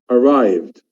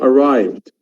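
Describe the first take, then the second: Both takes have the same delivery.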